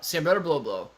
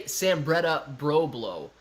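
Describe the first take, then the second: First: "Sambretta blow blow" run together quickly; quick version. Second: "Sambretta Broblo" said slowly, word by word; slow, careful version. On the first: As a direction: rattle "Sambretta blow blow" off in one go. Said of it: "try to say it really fast". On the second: Showing chat how not to say it, slow and careful. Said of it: "try to say it really fast. Don't say". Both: Shown as a demonstration.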